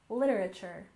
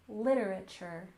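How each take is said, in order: First: The word is said at a quicker pace. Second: The word is said at a slower pace.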